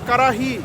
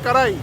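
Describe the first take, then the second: First: An h sound is heard before the final vowel. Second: No h sound is heard before the final vowel. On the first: This is how people in Lahore say it. "ওনারা বলে কারাহি" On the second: This is how some people in Punjab say it. "পাঞ্জাবের কিছু মানুষজন বলে কারাই"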